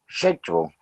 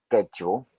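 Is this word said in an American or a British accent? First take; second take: British; American. First: It is said in a British accent. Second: It is said in an American accent. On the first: "British English schedule" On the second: "general American or American American English schedule"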